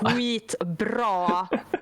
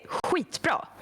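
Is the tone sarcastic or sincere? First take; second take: sarcastic; sincere. First: It sounds mocking and sarcastic. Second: It sounds warm and genuinely praising. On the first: The job was done badly. "which is well fucking done, you idiot" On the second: The job was really done well. "it's like fucking well done. Jesus, that was so good"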